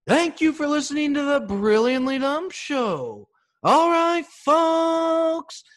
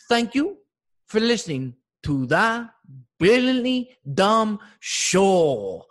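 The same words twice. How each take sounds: First: Loud, high announcer sign-off; podcast sign-off. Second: Put-on a loud, high, slow take on the sign-off, with an accent; imitating Poppy. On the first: Retold or imitated. Comic shouting his show outro to listeners. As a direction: boom it out like a show host. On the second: Comic imitating landscaper Poppy saying the outro. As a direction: mimic the gardener parroting the outro. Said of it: "He goes".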